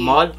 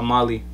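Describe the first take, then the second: First: The word ends without a final vowel sound. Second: The word ends with a final vowel sound. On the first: "Mal or Mali?" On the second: "That's I at the end"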